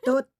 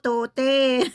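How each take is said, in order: First: The final e is silent, one syllable. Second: The final e is pronounced as a syllable. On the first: The speaker calls it right. "Tote pala" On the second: The speaker calls it wrong. "Akala ko tote"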